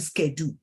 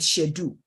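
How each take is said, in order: First: It is said with an American pronunciation. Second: It is said with a British pronunciation. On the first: This is how people here say it. "they call it schedule" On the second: This is how we say it. "we will call it schedule"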